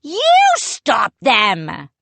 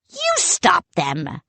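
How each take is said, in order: First: Slow, loud retort; the other head snapping back at his twin; shooting back. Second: Slow, high shout. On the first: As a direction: throw it right back. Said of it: "Pepper shot back". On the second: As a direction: snap it back at the other head. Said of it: "Salty shouted". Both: A narrator's reading.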